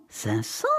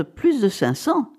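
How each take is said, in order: First: Low, soft astonished echo; hushed amazement. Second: Drawn-out, weighty CINQ CENTS; emphatic announcement. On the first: Wife echoing the sum her husband named, hushed amazement. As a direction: repeat it under your breath in disbelief. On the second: Husband estimating the object's value to his wife, emphatic. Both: A narrator's reading.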